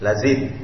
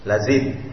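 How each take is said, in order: First: The middle consonant is a z sound. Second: The same.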